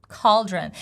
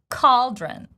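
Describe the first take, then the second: First: The word begins with a K sound. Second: The same.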